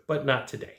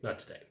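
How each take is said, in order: First: Said in the usual way. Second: Not today, said much softer; soft final Not today; quiet echo. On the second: Shown as a demonstration. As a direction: drop to almost nothing on Not today. Repeats refusal softly.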